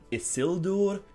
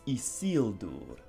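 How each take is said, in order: First: The I letters have English vowel sounds. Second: The I letters are sounded like 'ee'. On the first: The speaker calls it wrong. "So it's not Isildur" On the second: The speaker calls it right. "the letter I is pronounced like an E"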